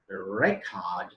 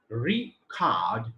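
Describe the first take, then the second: First: It carries the noun stress pattern. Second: It carries the verb stress pattern. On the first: The word is used as a noun. "is noun" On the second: The word is used as a verb. "is verb"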